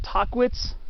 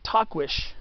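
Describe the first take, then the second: First: The name does not end in a 'ch' sound. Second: The name ends in a 'ch' or 'sh' sound. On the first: This is the common popular pronunciation. The speaker calls it wrong. "A lot of people say" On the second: This is the proper pronunciation. The speaker calls it right. "the pronunciation is supposed to be Tahquitch"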